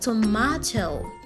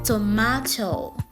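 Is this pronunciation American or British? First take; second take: British; British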